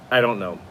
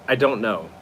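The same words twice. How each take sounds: The two takes are said the same way.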